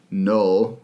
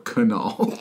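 First: The K is silent; it starts with N. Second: The K is pronounced before the N. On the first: "Null with a K like knife" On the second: "Kunal, which is how I'm going to pronounce it"

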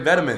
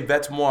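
First: The name is pronounced the English way. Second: The name is pronounced the French way. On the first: "I'm gonna say fucking vetements" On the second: "I'm not in Paris. You're not about to tell me to say vets moi"

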